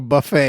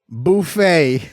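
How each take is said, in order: First: It is said with the standard pronunciation. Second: It is said with a South Louisiana pronunciation. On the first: This is the usual way to say it. The speaker calls it right. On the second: This is how the imitated person says it. The speaker calls it wrong.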